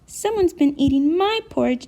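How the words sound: A small, high baby voice. "in his baby voice"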